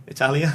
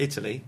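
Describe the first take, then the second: First: Italia with Italian vowels, ee-TAL-ya; Italian pronunciation. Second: Said in the usual way. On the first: Shown as a demonstration.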